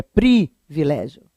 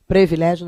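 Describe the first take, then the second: First: "privilégio" slow, with a clear PRI; pronúncia correta. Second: "Privilégio" as "previlégio"; pronúncia errada. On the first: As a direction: hold apart PRI in "privilégio". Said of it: "é privilégio". ("privilégio" com I claro: PRI-vilégio) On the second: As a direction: PRE instead of PRI in "Privilégio". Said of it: "não existe". ("Privilégio" com E: "previlégio") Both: Shown as a demonstration.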